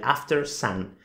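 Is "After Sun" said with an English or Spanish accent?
English. It is pronounced with an English accent. "en realidad la pronunciación correcta sería"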